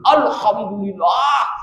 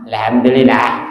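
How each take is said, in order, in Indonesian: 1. Diucapkan dengan penuh dan tegas, dengan energi. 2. Diucapkan dengan lemah dan setengah hati, tanpa energi. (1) "Medok, baca alhamdulillah" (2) "Aduh, jangan begitu"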